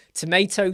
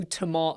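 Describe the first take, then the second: First: "tomato" as tə-MAY-to; American tomato. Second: "tomato" as tə-MAH-to, with a broad ah; British tomato. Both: Shown as a demonstration.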